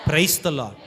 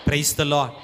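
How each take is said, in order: Both takes have the same delivery.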